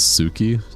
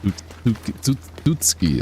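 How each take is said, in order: First: The name starts with a plain S sound. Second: The name starts with a T and S together. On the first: The speaker calls it wrong. "The T is silent, right?" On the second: The speaker calls it right. "it's like the T and S together"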